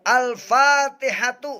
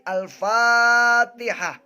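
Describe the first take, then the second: First: The word ends with a 'tu' sound. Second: The word ends with an 'h' sound. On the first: The reading continues without stopping. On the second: The reader stops at this point.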